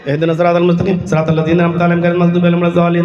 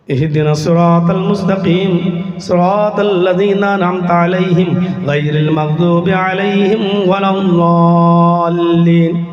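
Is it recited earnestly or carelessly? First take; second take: carelessly; earnestly. First: It is recited carelessly, like a hurried routine. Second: It is recited earnestly, like a heartfelt plea.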